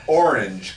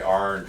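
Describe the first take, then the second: First: It is said carefully with every syllable clear. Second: It is said in a clipped, drawling rural accent. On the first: "See, I can enunciate" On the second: "I say orange real hillbilly like"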